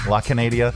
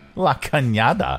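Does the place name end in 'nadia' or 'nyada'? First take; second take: nadia; nyada. First: The name is said ending in 'nadia'. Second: The name is said ending in 'nyada'. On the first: The speaker calls it wrong. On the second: The speaker calls it right.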